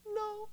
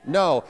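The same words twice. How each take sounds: First: Tiny, high, faint "No"; half-hearted, very soft and high; not meaning it. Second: Loud, convinced "No"; firm, loud refusal; like you believe it. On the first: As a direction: squeak out a feeble refusal very softly. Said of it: "you need to do it like you mean it". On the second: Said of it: "let's say it like we believe it". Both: Shown as a demonstration.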